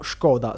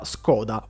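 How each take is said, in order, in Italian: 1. Il nome si dice più vicino al modo ceco. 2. Il nome si dice nel solito modo italianizzato.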